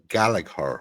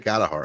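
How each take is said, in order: First: The second g sound is pronounced. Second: The second g sound is silent. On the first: The speaker calls it wrong. "a lot of people pronounce that wrong" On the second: The speaker calls it right. "that's the proper pronunciation"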